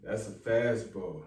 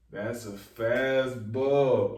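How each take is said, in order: First: Said in the usual way. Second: FASTBALL stretched out long and hard; slow, emphatic repeat. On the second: Real, not acted. Vlogger letting a clever line sink in, slow and emphatic. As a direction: draw out "fastball", savoring each word.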